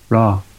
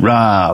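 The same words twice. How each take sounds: First: The word is short and flat without energy. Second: The word is drawn out with fierce, animal energy. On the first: The speaker calls it wrong. "Rather than rah" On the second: The speaker calls it right. "It needs to feel like animalistic"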